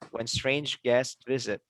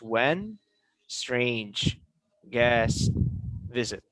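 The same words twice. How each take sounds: First: The words flow together without gaps. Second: Each word is said separately with gaps. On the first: The speaker calls it right. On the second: The speaker calls it wrong.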